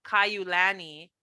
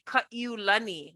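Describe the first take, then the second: First: "Kaiulani" the American way, as "kai-you-LAN-ee"; anglicized pronunciation. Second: "Kaiulani" the Hawaiian way, as "ka-ee-oo-LAH-nee"; Hawaiian elders' pronunciation. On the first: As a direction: say "Kaiulani" with a "you" glide and flat English a in "lani". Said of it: "learn how to pronounce our names". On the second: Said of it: "that Kupuna pronounce our names". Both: Shown as a demonstration.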